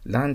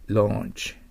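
First: The vowel sounds like an 'a'. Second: The vowel sounds like an 'o'. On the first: The speaker calls it wrong. "Launch と読んじゃダメですね。" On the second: The speaker calls it right. "AU はO と覚えてください。"

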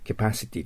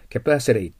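First: The t sound is pronounced clearly. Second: The t sound is softened, almost disappearing. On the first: "私たちはcapacity と言っていいんですけど" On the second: "capacity と聞こえても理解できるようにしないといけませんよね"

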